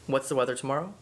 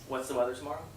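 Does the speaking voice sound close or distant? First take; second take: close; distant. First: The voice is spoken from close by. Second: The voice is spoken from across a room. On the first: "first at arm's length" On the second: "now we'll do across the room"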